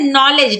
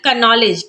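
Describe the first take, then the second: First: The word starts with an n sound, no k. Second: The word starts with a k sound before n. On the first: The speaker calls it right. "नॉलेज में क्या पढ़ते हैं" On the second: The speaker calls it wrong. "ना कि"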